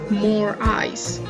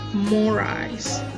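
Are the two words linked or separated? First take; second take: separated; linked. First: The two words are said separately. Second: The two words are linked together. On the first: The speaker calls it wrong. "We don't go" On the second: The speaker calls it right. "We just say"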